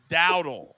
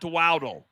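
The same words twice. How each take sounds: First: The name begins with a D sound. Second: The name begins with a W sound. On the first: The speaker calls it right. "It's Dowdle" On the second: The speaker calls it wrong. "There's no W at the beginning of Dowdle. It's not"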